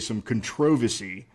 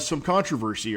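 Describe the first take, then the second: First: The word is said in a British way. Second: The word is said in an American way.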